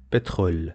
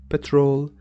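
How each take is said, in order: First: Petrol with a French throat R; French pronunciation. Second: Petrol with an English R; English pronunciation. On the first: Teacher repeating the French word, French R. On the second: Teacher giving the English meaning, English R. English word set against French one. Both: Shown as a demonstration.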